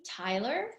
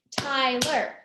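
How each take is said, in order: First: Said in the usual way. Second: TYLER in two even, level beats; syllable by syllable. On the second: Shown as a demonstration. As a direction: count out TY and LER in TYLER. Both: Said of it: "He's got two syllables".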